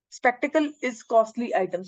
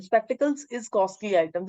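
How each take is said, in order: First: Spectacle said slowly as the wrong singular form; spectacle, no final s, drawn out and slow. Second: Spectacles said slowly with a clear final s; plural form. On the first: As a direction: read "Spectacle is costly item" slow, as the mistake. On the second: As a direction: read "spectacles is costly item" slow, stressing spectacles. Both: Shown as a demonstration. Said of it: "this is wrong".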